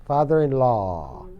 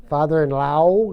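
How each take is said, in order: First: "law" in "Father-in-law" drawn out as an open "laa"; long "aa" vowel. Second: "law" in "Father-in-law" said as "lao", rhyming with "how"; wrong "au" vowel. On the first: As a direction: slowly say "Father-in-law" with a long, pure "aa" at the end. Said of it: "Quería dos A's". ("law" con una A larga, como "laa") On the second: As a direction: end "Father-in-law" on a mistaken "ow" glide. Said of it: "pero A U es au". ("law" pronunciado mal, como "lau") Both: Shown as a demonstration.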